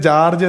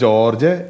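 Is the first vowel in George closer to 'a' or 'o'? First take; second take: a; o. First: The first vowel sounds like 'a'. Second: The first vowel sounds like 'o'. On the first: This is how people in Tamil Nadu say it. "Tamil Nadu പോയിക്കാണെങ്കിൽ ജാർജ് എന്ന് വിളിക്കും, J എ ആണ് വരുന്നത്" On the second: This is how people in Kerala say it. "നമ്മൾ വിളിക്കുന്നത് എടാ ജോർജ്, അപ്പൊ J ഒ ആണ് വരുന്നത്"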